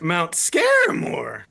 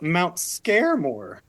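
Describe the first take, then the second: First: It is said in a raspy, creepy put-on voice. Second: It is said in a mostly ordinary voice. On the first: The speaker calls it right. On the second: The speaker calls it wrong.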